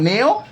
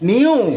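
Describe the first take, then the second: First: The word is pronounced like 'neo'. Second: The word is pronounced like 'new'. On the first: The speaker calls it wrong. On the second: The speaker calls it right.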